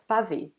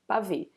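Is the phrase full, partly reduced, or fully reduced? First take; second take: fully reduced; fully reduced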